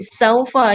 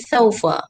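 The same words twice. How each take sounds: First: It begins with a plain s sound. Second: It begins with a lisped th sound. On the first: The speaker calls it right. "dia huruf S. Ah, tak boleh keluarkan gigi" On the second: The speaker calls it wrong. "Kalau keluar gigi dia bunyi saufa. Ah, salah"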